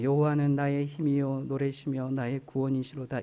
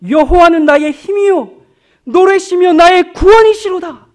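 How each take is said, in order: First: It is read flatly, without feeling. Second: It is read joyfully, with strong emotion.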